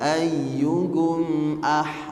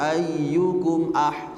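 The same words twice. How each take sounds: First: The m sound is held and flows longer. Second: The m sound is clipped short and rushed. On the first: The speaker calls it right. "Yang tepat ... alirkan dulu di suara mimnya" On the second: The speaker calls it wrong. "jangan ikhtilas terlalu cepat ... salah"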